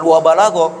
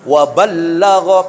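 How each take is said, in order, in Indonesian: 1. Bunyi l pendek dan tunggal. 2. Bunyi l dobel dan ditahan lebih lama. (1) "bukan wa balagha" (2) "pakai tasydid"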